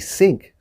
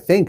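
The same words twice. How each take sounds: First: It begins with an s sound. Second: It begins with a th sound. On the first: The speaker calls it wrong. "The problem was with the word think" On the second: The speaker calls it right. "we should pronounce it"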